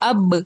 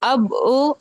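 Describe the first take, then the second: First: It ends in a short bouncing release, no vowel. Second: It ends with an added 'o' vowel after the consonant. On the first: The speaker calls it right. "जिससे वो bouncing sound आ रही है" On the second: The speaker calls it wrong. "अब वो नहीं बोलना है"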